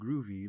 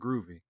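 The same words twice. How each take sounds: First: It is said in a put-on, laid-back hipster voice. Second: It is said in a plain, sincere way. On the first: It is used as trendy slang. "oh hey man" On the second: The music really has a groove. "I'm not using that in a hipstery"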